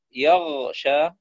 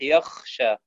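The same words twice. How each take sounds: First: يغشى with voiced, flowing gh; true ghayn. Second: Slow يخشى with voiceless scraped kh; ghayn as khaa. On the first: Teacher giving correct recitation, يغشى with voiced ghayn. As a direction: keep the gh of يغشى voiced before sh. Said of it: "يبدل الغين خاء". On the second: Teacher showing a mistake, يخشى with kh for ghayn. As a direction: devoice the gh into kh, making يخشى. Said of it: "تصبح يخشى". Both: Shown as a demonstration.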